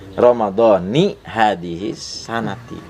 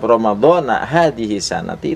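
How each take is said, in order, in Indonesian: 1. Kata pertama berakhir dengan vokal 'i'. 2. Kata pertama berakhir dengan vokal 'a'. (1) "Karena harus diidofahkan, digabungin" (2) "itu enggak jelas"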